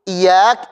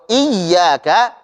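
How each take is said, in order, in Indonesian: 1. Bunyi y-nya pendek dan tunggal. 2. Bunyi y-nya panjang dan ganda. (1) "Kalau ya-nya tidak bertasydid" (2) "Kalau iyyaka"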